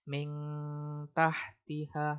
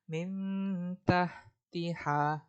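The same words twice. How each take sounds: First: The nasal sounds like a back ng sound. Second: The nasal sounds like a softened, hidden n. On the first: The speaker calls it wrong. "Kalau eng itu salah" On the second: The speaker calls it right. "dia cara bacanya seperti di en kan, tapi dia nggak en banget karena dia tetap ... samar"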